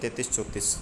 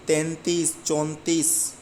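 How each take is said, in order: First: Quick, falling तैंतीस, चौंतीस with no n, te-tees, cho-tees; anusvara dropped. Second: तैंतीस, चौंतीस with a clear n before the t; anusvara sounded. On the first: Teacher showing the careless habit, तैंतीस, चौंतीस without the n. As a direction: skip the nasal in तैंतीस, चौंतीस. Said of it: "सीधे ही बोल देते हैं". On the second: Teacher modelling correct numbers, तैंतीस, चौंतीस with the n pronounced. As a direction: sound the nasal in तैंतीस, चौंतीस: tain-tees, chaun-tees. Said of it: "अनुस्वार का अपन उच्चारण नहीं करते हैं". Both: Shown as a demonstration.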